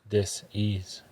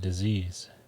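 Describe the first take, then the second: First: The stress falls on the first syllable. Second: The stress falls on the second syllable. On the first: It means being uneasy with something. "Let's change our emphasis in the word" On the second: It names an illness. "Instead of saying disease"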